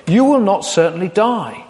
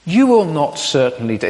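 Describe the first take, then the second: First: Barely hint at the snake's voice; snake line. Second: Said in the usual way. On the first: Shown as a demonstration. Preacher reading the snake's lie to Eve, lightly sly. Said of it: "tempting to say this with a sort of a voice". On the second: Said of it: "tempting to say this with a sort of a voice ... I won't do that".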